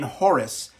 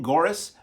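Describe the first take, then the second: First: The surname begins with a breathy H-like sound. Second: The surname begins with a hard G sound. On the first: This is how people from her region say it. "people closer to the section of the world where she came from ... refer to her as Marlene Horace" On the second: This follows the spelling. "it's spelled Marlene Goris"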